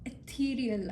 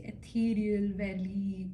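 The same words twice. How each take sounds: First: Said in the usual way. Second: Ethereal breathed out as a soft whisper. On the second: Shown as a demonstration. Reader to viewer, whispering Ethereal as she picks the word. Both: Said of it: "I want to say".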